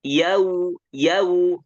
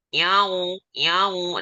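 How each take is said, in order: First: YAU held high and loud, all from the mouth; oral yau, non-nasal. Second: YAU held high with the sound sent into the nose; nasal yau. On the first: Teacher proves a closed nose changes nothing, oral chant. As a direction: sing out "yau" with no nose resonance. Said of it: "Kalau hidung tutup itu nggak ngaruh". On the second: Teacher shows how it differs from the nose, nasal chant. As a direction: honk "yau" through the nose as the faulty version. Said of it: "Tapi kalau dari hidung". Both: Shown as a demonstration.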